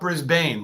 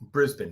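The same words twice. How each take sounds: First: The final syllable is said fully and clearly. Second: The final syllable is weak and swallowed. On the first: The speaker calls it wrong. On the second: The speaker calls it right. "You just swallowed the boon"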